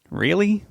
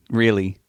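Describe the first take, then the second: First: High rising disbelieving Really?; Really? pitched far up in shock; can't believe the news; stunned disbelief. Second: Said in the usual way. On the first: A narrator's reading.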